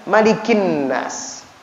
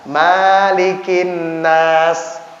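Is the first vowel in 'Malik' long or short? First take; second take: short; long. First: The first vowel of Malik is kept short. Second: The first vowel of Malik is drawn out long. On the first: The speaker calls it right. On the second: The speaker calls it wrong.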